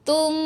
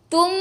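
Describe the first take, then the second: First: The lips touch lightly and the m hums. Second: The lips press hard and the hum stops. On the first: The speaker calls it right. "kalau nak dengung, kita sentuh sikit je" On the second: The speaker calls it wrong. "Kalau kita tekan, susah nak dengung tu"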